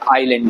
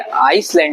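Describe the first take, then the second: First: No s sound is heard after the first vowel. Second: An s sound is heard after the first vowel. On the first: The speaker calls it right. "तो S silent है, आइलैंड बोलेंगे" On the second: The speaker calls it wrong. "आइसलैंड नहीं होगा ये"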